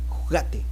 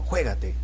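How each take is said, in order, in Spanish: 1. Se dice en español argentino. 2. Se dice en español peruano. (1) "el argentino dice" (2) "Uno dice acá en el Perú"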